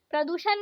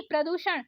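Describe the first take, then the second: First: प्रदूषण ending in plain न; wrong dental N. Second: प्रदूषण ending in curled-tongue ण; correct retroflex ण. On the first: Teacher showing learners the mistake, dental-N प्रदूषण. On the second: Teacher correcting learners, retroflex प्रदूषण. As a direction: curl back for ण in प्रदूषण. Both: Shown as a demonstration. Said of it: "नहीं".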